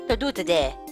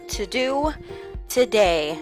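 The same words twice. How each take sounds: First: It is said very fast. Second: It is said at a normal pace.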